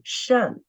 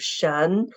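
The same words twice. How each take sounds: First: The syllable is said with the fourth tone. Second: The syllable is said with the second tone. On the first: "And the fourth tone" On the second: "The second tone"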